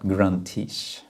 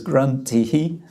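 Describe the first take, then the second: First: The word ends with an 'sh' sound. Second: The word ends without an 'sh' sound. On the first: The word is joined to the next word. "this sh sound on the end" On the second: The word stands on its own. "it says gruntihi, not gruntish"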